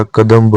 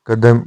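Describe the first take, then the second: First: कदम्ब ending in mb; correct form. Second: कदम ending on plain m; incorrect form. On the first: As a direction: sound the b closing कदम्ब. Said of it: "होता है". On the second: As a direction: say कदम as "kadam". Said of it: "नहीं होता". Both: Shown as a demonstration.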